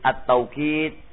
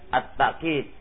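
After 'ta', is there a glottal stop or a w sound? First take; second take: w sound; glottal stop. First: A w sound follows the first syllable. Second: A glottal stop follows the first syllable. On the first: "Boleh dibaca at-tawqid" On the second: "bil hamzah"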